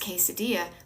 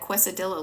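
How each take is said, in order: First: The word is pronounced in the ordinary, standard way. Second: The word is pronounced in a playful, distorted way. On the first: The speaker calls it right. "I know it's quesadilla" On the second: The speaker calls it wrong. "I sometimes mispronounce words because it cracks me up"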